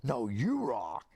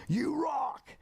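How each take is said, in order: First: Slow, drawn-out mock yell; yelled back. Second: Very high, held-out fan yell; mock yell. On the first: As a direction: stretch it out as a returned shout. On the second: Starstruck fan to [name], high mock yell. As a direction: call it out high without real volume. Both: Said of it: "he yelled back".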